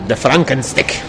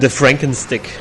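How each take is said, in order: First: It is said in a German accent. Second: It is said in the speaker's normal accent.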